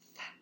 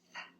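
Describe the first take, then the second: First: The th sound is voiceless, only air. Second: The th sound is voiceless, only air.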